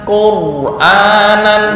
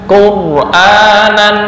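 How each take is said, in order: The two takes are said the same way.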